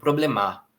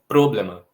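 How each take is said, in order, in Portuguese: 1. A sílaba tônica é a última. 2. A sílaba tônica é a primeira. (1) "também não é o mar, senão ficaria um problemar" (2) "a sílaba tônica não pode ser o pro, porque senão a palavra ficaria problema"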